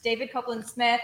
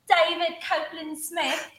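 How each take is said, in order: First: The name is said in a plain American accent. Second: The name is said in an attempted British accent.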